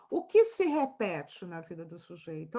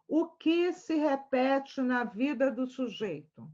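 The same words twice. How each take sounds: First: O que se repete na vida do sujeito? said lower and rising; low rising question. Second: O que se repete na vida do sujeito? drawn out, falling at the end; slow emphatic question. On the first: Professor repeating the key question in a lower voice. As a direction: lower voice, lift the end of the question. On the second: Professor to students, asking slowly and pointedly. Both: Shown as a demonstration.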